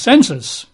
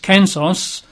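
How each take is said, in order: First: The word begins with a soft S sound. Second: The word begins with a hard K sound. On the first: "which we'd normally pronounce as census" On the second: "The Greek word is kensos. You'd write that as K-E-N-S-U-S"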